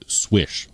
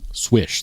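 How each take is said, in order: First: The name begins with an 'sw' sound. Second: The same.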